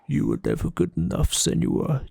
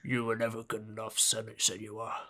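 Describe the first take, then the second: First: A deep put-on voice, much more growly. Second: A deep put-on voice, not very growly. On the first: "It's much more growly" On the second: "It's nothing like that"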